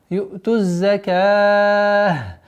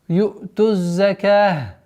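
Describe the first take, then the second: First: The long vowel is held for four counts. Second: The long vowel is held for two counts. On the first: "четыре" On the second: "два"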